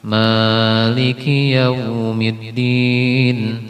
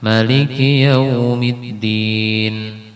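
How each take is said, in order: First: The first vowel of Maliki is long. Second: The first vowel of Maliki is short.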